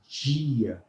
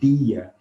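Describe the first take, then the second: First: The d sounds like the j in jeans. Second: The d is a plain d sound. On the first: This is how most of Brazil says it. "numa grande parte do Brasil... nós falamos dia" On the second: This is not how most of Brazil says it. "Nós não falamos dia"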